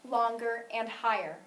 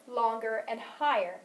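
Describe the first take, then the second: Both takes have the same delivery.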